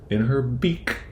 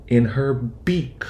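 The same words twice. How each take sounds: The two takes are said the same way.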